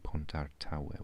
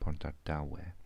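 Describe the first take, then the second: First: The middle consonant is a t sound. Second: The middle consonant is a d sound. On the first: The speaker calls it wrong. "we don't say Pontartawe" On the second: The speaker calls it right. "we say Pontardawe"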